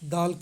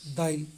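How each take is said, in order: First: No vowel is inserted before the final consonant. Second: An 'i' vowel is inserted before the final consonant.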